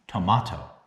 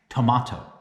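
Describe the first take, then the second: First: It is pronounced the Korean way. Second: The same.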